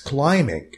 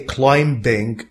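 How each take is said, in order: First: The b sound is silent after the m. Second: The b sound is pronounced after the m. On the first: The speaker calls it right. "this B is silent. No, it's climbing" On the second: The speaker calls it wrong. "Don't say climbing"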